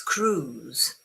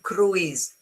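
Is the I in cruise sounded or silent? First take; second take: silent; sounded. First: The letter I is silent, one long oo. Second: The letter I is sounded as a vowel. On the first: The speaker calls it right. "It's cruise" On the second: The speaker calls it wrong. "do not pronounce the I, not cru- cru- cruise. It's wrong"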